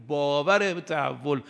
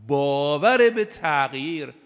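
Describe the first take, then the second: First: Said in the usual way. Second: «باور» drawn out slowly and said louder, pressing the whole phrase; emphatic stress. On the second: Shown as a demonstration. Preacher stressing «باور» to the young, slow loud emphasis. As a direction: lean hard on «باور», slow and weighty.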